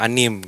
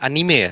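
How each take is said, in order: First: The word ends without a final vowel. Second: The word ends with a sounded final vowel. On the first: The speaker calls it wrong. "ada beberapa orang yang ngomong anim gitu" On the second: The speaker calls it right. "Tapi yang benar adalah anime ya"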